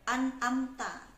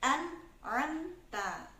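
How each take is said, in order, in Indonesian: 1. Kedua bunyi tenggorokan dibuat dengan cara yang sama. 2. Pertama hamzah, lalu bunyi tenggorokan yang lebih dalam. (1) "Jangan sampai" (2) "yang pertama hamzah, yang kedua ain"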